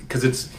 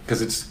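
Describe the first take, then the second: No difference in how they are said.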